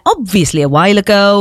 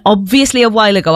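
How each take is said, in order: First: Knowing, pointed delivery; sarcastic dig. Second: Said in the usual way. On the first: Retold or imitated. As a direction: stress the dig in it. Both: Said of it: "I loved that little dig in there".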